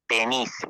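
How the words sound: It is said in a put-on Mexican accent.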